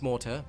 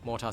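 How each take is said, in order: First: The word is said with its standard pronunciation. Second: The word is said with the speaker's own pronunciation. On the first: "I know it's Mortar" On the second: "everybody hates how I pronounce that, but I'm still going to call it Mortar"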